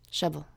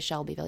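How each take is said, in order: First: The name is squeezed into two short syllables. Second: All three syllables are said in full. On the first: "he's got a real thick accent, so you don't say Shelbyville. You say Shovel" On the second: "you don't say Shelbyville"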